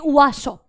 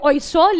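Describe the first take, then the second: First: The word begins with a 'wa' sound. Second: The word begins with an 'oy' sound. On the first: "अगर फ्रेंच में बोलेंगे तो बोलेंगे" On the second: "हम इंग्लिश में उसे बोलेंगे"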